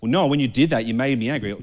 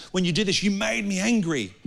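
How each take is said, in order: First: Said in the usual way. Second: Higher, mocking whiny complaint; mock-whiny blaming voice; mocking whine. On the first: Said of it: "as Noah would know". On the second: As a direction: parrot the excuse like a sulky child. Mocking the blame-game excuse.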